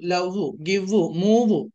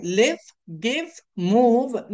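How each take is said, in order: First: లవ్, గివ్, మూవ్ with a Telugu u vowel added after each v; wrong u ending. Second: లివ్, గివ్, మూవ్ said slowly, each ending on a clear v with friction; correct v ending. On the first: Teacher showing students how not to say it, trailing u. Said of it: "అంతేగాని ఇలా అనకూడదు". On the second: Teacher modelling the right endings, slow and clear. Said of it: "ఇలా ఎల్ఐవిఈ". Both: Shown as a demonstration.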